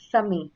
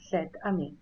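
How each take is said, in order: First: The vowels run together with no t sound. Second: A t sound links the two words. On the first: The speaker calls it wrong. "You can't pronounce it properly" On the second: The speaker calls it right. "So this becomes set ami"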